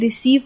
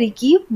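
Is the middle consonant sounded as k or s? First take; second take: s; k. First: The middle consonant is an s sound. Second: The middle consonant is a k sound. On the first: The speaker calls it right. "सी के बाद ई आया तो हमने रिसीव पढ़ा" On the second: The speaker calls it wrong. "हमने रिकीव नहीं पढ़ा"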